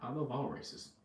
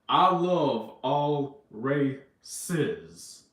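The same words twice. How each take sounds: First: It is said at a quicker pace. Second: It is said more slowly.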